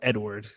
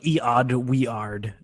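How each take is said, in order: First: The name is said as the ordinary Edward. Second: The name is sounded out following its odd spelling. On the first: "no, it's Edward" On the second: "It's like Eod Weard"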